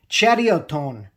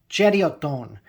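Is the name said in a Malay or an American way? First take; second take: Malay; Malay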